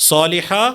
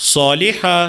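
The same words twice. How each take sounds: Both takes have the same delivery.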